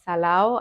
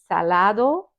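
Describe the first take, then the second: First: The d sound is dropped entirely. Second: The d sound is clearly pronounced. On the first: "people don't doesn't pronounce the d um, at the end of the word, so it sounds salao" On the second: "the right word should be salado"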